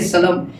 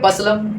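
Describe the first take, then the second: First: The P is silent but the L is sounded. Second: Both the P and the L are sounded. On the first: "कुछ लोग कहेंगे सलम" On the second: "कुछ लोग कहेंगे पसलम"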